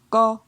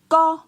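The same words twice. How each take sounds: First: The syllable is said on a mid tone. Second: The syllable is said on a high tone. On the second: "Pour un ton haut"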